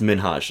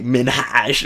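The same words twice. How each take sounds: First: The H sound is pronounced lightly. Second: The H sound is pronounced very strongly. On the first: The speaker calls it right. "and it's Minhaj. Like, there's an H there" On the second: The speaker calls it wrong. "I don't want to hit the H too hard"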